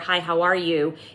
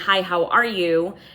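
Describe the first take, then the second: First: It sounds cold, curt and unfriendly. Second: It sounds warm, delighted and excited. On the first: The speaker dislikes the other person. "You don't like this person at all" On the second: The speaker is thrilled to see a dear friend. "like you're saying it to your long lost best friend"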